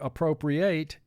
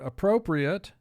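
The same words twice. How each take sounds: First: The final syllable has a full 'ate' vowel. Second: The final syllable has a reduced 'it' vowel. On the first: Something is taken away. "it means to take away" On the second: Something is acceptable. "it means something that's acceptable"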